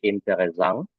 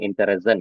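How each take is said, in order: First: The word is said with a French-like sound. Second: The word is said with a plain non-French sound. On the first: The speaker calls it right. "pengucapannya mirip dengan bahasa Prancis" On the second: The speaker calls it wrong. "jangan Interessant ya"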